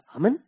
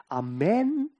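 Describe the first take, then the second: First: Short, high Amen with a weak ending; clipped AH-men, unstressed ending; first-syllable Amen. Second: Amen opening out on a long, rising -men; drawn-out a-MEN, lifting at the end. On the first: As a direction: say Amen briefly, letting -men shrink. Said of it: "Dann klingt's auch viel offener". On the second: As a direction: let the second syllable of Amen open upward. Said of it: "dann öffne ich mich". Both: Shown as a demonstration.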